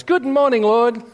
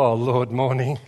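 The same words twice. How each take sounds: First: Much higher, bright sing-song greeting; cheery morning wife. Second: Low, slurred half-awake mumble; groggy non-morning person. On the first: Wife greets God at dawn, chirpy high sing-song. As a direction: chirp it like a born morning person. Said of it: "Merle wakes up and goes". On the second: Husband greets God half asleep, groggy low mumble. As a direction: drag it out like you just woke up. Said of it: "I wake up and go". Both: Retold or imitated.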